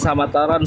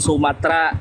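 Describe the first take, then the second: First: The name is said as Samataran. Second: The name is said as Sumatera. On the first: The speaker calls it wrong. "bukan Samataran" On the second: The speaker calls it right. "Sumatera itu Sumatera"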